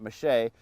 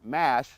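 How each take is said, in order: First: It is said with a French pronunciation. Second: It is said like the English word mash. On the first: "that's the French pronunciation" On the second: "it's called corn mash"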